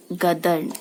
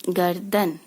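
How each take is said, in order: First: गदर्न with the र sound moved to the end, read as written; misspelled form read aloud. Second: Said in the usual way. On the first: Shown as a demonstration. Teacher reading the wrong spelling गदर्न to her class. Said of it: "र का रेफकार है". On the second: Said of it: "तो यहाँ गर्दन, यहाँ गदर्न".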